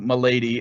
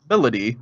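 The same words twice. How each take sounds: First: The name sounds like "my lady." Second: The name sounds like "melody." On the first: This is how the spelling reads. The speaker calls it wrong. "my h mind automatically goes to" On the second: This is how it is actually said in the game. The speaker calls it right. "you pronounce it Melody"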